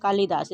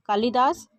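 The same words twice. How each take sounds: First: कालिदास with a short i; कालिदास as kaa-li-daas, middle quick; correct pronunciation. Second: कालिदास with a long i, "kaaleedaas"; कालिदास with lee in the middle; wrong pronunciation. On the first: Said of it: "कालिदास जो शुद्ध लिखा जाता है". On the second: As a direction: lengthen the "li" in कालिदास. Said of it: "इसमें ल में बड़ी की मात्रा है". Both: Shown as a demonstration.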